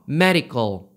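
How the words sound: It is said with English pronunciation. "영어로는요. 역시나 medical이라고 해주시면 돼요"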